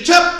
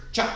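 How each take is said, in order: First: High loud barked chop; shouted command. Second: Said in the usual way. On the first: Shown as a demonstration. Instructor drilling students, loud shouted chop. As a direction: call it out to the whole class. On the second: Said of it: "you gotta step out and chop".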